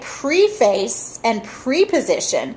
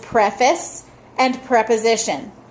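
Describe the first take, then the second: First: The first syllables sound like the prefix 'pree'. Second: The first syllables sound like a short 'preh'. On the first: The speaker calls it wrong. "they don't say preface and preposition" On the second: The speaker calls it right. "the proper way to say it is preface and preposition"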